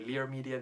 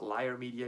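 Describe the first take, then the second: First: The first word sounds like 'leer'. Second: The first word sounds like 'liar'. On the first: The speaker calls it right. "I say Lear Media" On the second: The speaker calls it wrong. "not Liar Media"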